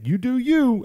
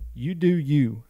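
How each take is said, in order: First: It is said in a very mocking tone. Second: It is said plainly and sincerely.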